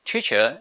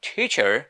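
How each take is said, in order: First: Teacher in British style, final r dropped; British pronunciation. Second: Teacher with an American r at the end; American pronunciation. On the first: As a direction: say "teacher" the British way, ending on an open vowel. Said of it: "is in British". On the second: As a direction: say "Teacher" the American way, ending on a sounded r. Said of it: "is in American". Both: Shown as a demonstration.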